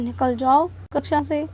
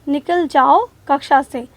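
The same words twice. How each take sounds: First: The phrase is said quietly and calmly. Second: The phrase is shouted loudly and angrily. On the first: The speaker is not angry. "हम शांति से बोलते हैं" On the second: The speaker is angry. "अध्यापक चिल्लाते हुए बोलते हैं"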